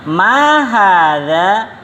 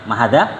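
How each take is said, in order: First: MA stretched and swooping high, HADZA drawn out to a rise; very slow, higher question tune on "Ma hadza"; question intonation. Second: "Ma hadza" said low and short, without the long questioning arch; "Ma hadza" undrawn, ambiguous between telling and asking; unclear question intonation. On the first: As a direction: model "Ma hadza" as a long, lilting question. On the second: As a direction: toss off "Ma hadza" quickly in a lower pitch. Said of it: "Ini penghabaran atau bertanya". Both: Shown as a demonstration.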